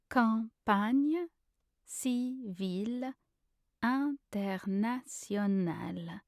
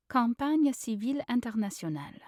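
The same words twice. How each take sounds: First: Slow, every syllable set apart. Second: Said in the usual way. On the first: Shown as a demonstration. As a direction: lay out the phrase for a learner. Pronunciation guide, broken-down take.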